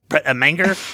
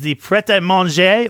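First: The name is said in an American accent. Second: The name is said in a British accent.

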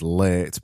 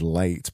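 First: The vowel is stretched out long. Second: The vowel is short and plain. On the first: "I say it as late because I am from Barnsley and we extend our vowels" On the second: "or you may say it as late"

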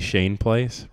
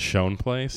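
First: The first word has the vowel of 'lane'. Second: The first word has the vowel of 'lawn'. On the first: This is the technically correct name. "it is technically Shane Place" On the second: This is how people commonly say it. "literally everyone says Shone Place"

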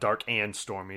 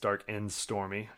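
First: The word 'and' is said in full. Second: The word 'and' is reduced to a short 'n'. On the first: The speaker calls it wrong. "It's not Dark and Stormy" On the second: The speaker calls it right. "just like Toys R Us"

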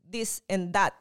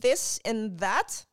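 First: The th sounds are hard, like a d. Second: The th sounds are soft and breathy. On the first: The speaker calls it wrong. "we also give too much emphasis on our THs and D" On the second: The speaker calls it right. "instead of saying"

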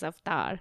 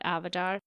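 First: It is said in an Indian accent. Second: It is said in an American accent.

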